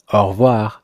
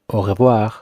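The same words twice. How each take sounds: First: The E in revoir is dropped, said faster. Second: The E in revoir is fully pronounced. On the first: "The E would be removed, so if you heard it in France, it would sound like au revoir, but faster" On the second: "you most likely won't hear it pronounced au revoir"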